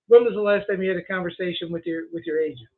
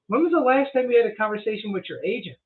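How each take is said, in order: First: The question is asked softly, without probing interest. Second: The question is asked in a probing, inquisitive tone. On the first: The speaker calls it wrong. "you kind of got a little soft at the end" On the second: The speaker calls it right. "You see how my tone's different? It, it's an inquisitive question"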